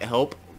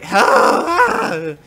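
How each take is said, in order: First: It is said calmly, without urgency. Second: It is said urgently, like an emergency.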